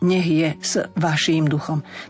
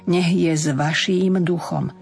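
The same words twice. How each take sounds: First: The preposition is said with a voiceless s. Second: The preposition is said with a voiced z. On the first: The speaker calls it wrong. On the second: The speaker calls it right.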